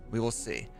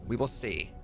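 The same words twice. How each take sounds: The two takes are said the same way.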